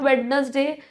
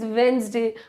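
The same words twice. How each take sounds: First: The d in the middle is pronounced. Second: The d in the middle is silent. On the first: The speaker calls it wrong. "this is not Wednesday" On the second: The speaker calls it right. "this is Wednesday. Over here, D is silent"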